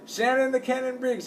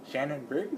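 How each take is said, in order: First: Imitation press-conference announcer; ring announcer. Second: Softly questioning, rising at the end; mild retold puzzlement; puzzled query. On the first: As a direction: announce the fighter to a crowd. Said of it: "introducing the". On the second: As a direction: ask the name in quiet disbelief. Retells his own puzzled reaction.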